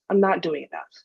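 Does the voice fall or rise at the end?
fall. It is said as a statement, falling.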